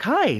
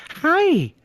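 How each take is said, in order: First: High, loud, friendly "Hi"; friendly greeting. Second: Very high, loud mocking "Hi"; condescending greeting. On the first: Retold or imitated. Driver greeting the armed guard at the window, friendly. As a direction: imitate a really nice, chirpy hello. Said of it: "she's really nice". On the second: Armed guard answering the driver's hello, condescending. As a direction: throw the hello back condescendingly. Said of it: "back, kinda condescending".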